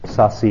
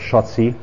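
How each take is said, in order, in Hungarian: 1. A nevet franciásan ejtik. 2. A nevet magyarosan ejtik. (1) "ez francia kiejtés" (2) "a magyar"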